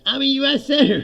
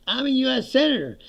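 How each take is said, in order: First: Near-shouted repeat of his title, louder and higher; louder protest. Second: Raised, insistent claim of rank; indignant protest. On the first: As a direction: cry it out as they shove you through the door. Repeated as pushed out door. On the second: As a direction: assert who you are as they grab you. Senator protests being grabbed. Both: Retold or imitated.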